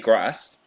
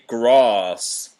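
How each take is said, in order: First: It is said in a northern English accent. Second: It is said in a southern English accent. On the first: "I say grass" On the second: "The southerners say grass"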